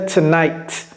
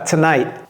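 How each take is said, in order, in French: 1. Le T final se prononce bien. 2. Le T final ne se prononce pas. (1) "le T qui est à la fin, vous pouvez prononcer ça" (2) "généralement, ça ne se prononce pas"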